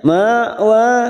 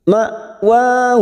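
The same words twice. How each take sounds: First: The first syllable is dragged out. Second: The first syllable is cut off crisply. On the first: The speaker calls it wrong. "jangan sampai diseret, jangan sampai ma wa" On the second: The speaker calls it right. "cara membacanya dengan tegas ma"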